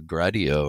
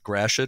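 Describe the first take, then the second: First: The name is said with a French pronunciation. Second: The name is said with an English pronunciation. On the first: This follows the name's French origin. "More of a French yep. pronunciation" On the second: This is how the name is said locally. "am I saying it more or less correctly?"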